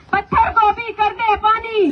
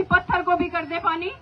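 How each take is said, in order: First: Roaring rallying speech. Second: Said in the usual way. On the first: Acted. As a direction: lead the crowd chant at full voice. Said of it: "आप लोग मेरे साथ नारा लगाना". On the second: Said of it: "मैं बोलूंगी".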